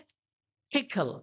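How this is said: The p is breathy, with a puff of air. This is the English way of saying it. "वो लोग बोलते हैं"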